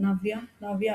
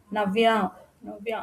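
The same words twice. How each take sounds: First: Said in the usual way. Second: A graver, sterner call; more serious. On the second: A narrator's reading. Ravan calling Navya again behind the locked door, gravely. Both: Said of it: "ఈసారి మరింత గంభీర్యంగా".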